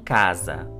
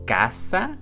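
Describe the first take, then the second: First: The middle consonant is a buzzing z sound. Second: The middle consonant is a hissing s sound. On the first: The speaker calls it wrong. "e não casa" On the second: The speaker calls it right. "é caça"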